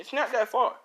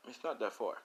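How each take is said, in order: First: It's not that far, louder and higher, NOT hit; emphatic. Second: Said in the usual way. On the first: Real, not acted. Narrator insists to listeners it's not far, loud and emphatic.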